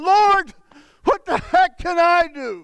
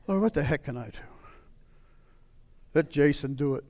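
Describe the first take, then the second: First: Raised, pleading cry upward; a frustrated prayer called out; exasperated plea. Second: Lower, much softer, resigned; tired prayer handing it off; defeated mutter. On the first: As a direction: throw the question at heaven. Desperate cry to God. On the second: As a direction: give up under your breath. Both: Retold or imitated.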